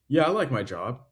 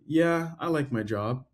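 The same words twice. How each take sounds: First: It is said plainly and confidently. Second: It is said hesitantly and unsure. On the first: The person really likes the job. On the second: The person does not really like the job.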